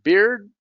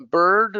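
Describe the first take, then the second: First: Slow "beard", ee into R; isolated "beard", pitched up, with ee glide; beard vowel. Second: Drawn-out "bird" with er; isolated "bird", pitched up, with central er; bird vowel. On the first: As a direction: stretch "beard" as bee-rd. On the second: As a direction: hold the er in "bird". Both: Shown as a demonstration. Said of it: "difficult to hear".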